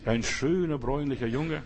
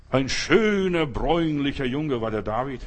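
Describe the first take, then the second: First: Tender. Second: Schöner pushed out louder, bräunlicher rising; emphatic praise. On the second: Preacher proclaiming David's beauty, loud and emphatic. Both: Shown as a demonstration. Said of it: "In aller Liebe".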